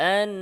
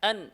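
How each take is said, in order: First: The n carries a slight nasal hum. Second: The n is cut off without nasal hum. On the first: The speaker calls it right. "সামান্য গুন্না হয় কি হয় না? ... এইভাবেই বলতে হবে" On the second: The speaker calls it wrong. "এটা কিন্তু ভুল"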